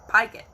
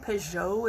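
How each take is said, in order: First: The first syllable sounds like 'pie'. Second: The first syllable does not sound like 'pie'. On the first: This is how the name is said now. "Pygott is how you say my last name" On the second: This is probably how the name was originally said. "probably the original name"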